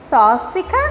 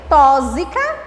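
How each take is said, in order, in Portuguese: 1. O x soa como s. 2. O x soa como z. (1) "com S" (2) "com Z"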